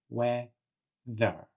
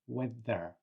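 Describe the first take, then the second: First: The word is said slowly and drawn out. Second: The word is said at normal speed.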